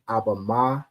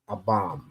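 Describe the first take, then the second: First: The ending is said as a separate syllable. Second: The ending is joined onto the word's last sound. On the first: The speaker calls it right. "I believe it'd be Abba Ma" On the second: The speaker calls it wrong. "join and be like"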